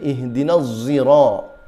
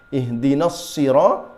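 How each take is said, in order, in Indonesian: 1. Kata kedua diawali dengan bunyi z yang tebal. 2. Kata kedua diawali dengan bunyi s.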